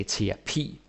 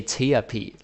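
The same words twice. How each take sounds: First: "terapi" stressed on the final long "pi"; stress on last syllable. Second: "terapi" stressed on the first syllable, like English therapy; wrong English-style stress. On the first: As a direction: say "terapi" with the weight on the closing E sound. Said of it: "You put the stress on the E". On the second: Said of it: "like therapy". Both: Shown as a demonstration.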